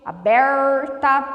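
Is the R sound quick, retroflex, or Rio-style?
retroflex. The R is a drawn-out retroflex sound. This is how northern Paraná speaks. "nós usamos o R retroflexo, que é um R bem puxado"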